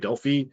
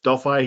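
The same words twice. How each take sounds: First: The name is said the non-American way. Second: The name is said the American way. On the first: This is how people outside the US say it. "If you're outside the U S, we say they say Delphi" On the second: This is how people in the US say it. "if you're from the U S, we say Delph, Delphi here"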